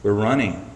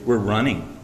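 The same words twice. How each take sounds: First: "running" carries the weight, falling at the end; stress on running. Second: "We're" hit hard, then "running" falls off; stress on we're. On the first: Preacher repeating the answer, stress moving to "running". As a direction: repeat it, landing hard on "running". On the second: Preacher answering his own question, weight on "We're". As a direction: lean into "We're" and let "running" drop. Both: Shown as a demonstration. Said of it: "guess what we're doing?".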